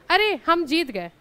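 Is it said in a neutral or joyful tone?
joyful. It is said as a joyful exclamation.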